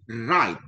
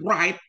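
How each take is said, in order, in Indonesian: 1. Kata ini diawali tanpa bunyi w. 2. Kata ini diawali dengan bunyi w. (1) "tapi write" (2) "Ini bukan write"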